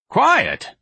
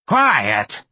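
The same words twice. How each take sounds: First: High, loud demand; Miss Trixie demanding quiet. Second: Fierce demand. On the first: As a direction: shout for quiet, pitched high. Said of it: "Miss Trixie demanded". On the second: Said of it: "this time much more fiercely". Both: A narrator's reading.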